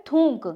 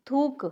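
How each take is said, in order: First: थूक as some say it, nasal thoonk; थूक with a nasalised oo; common mispronunciation. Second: थूक with a clean oo, no n sound; plain thook for थूक, nothing through the nose; correct oral pronunciation. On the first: Retold or imitated. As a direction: slip an n sound into थूक. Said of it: "कुछ लोग बोलते हैं". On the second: Shown as a demonstration. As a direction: say थूक as thook, vowel not nasalised. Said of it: "ऐसे बोला जाता है".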